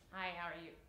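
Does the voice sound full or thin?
thin. The voice is thin and unsupported. The speaker calls it wrong. "you can't go"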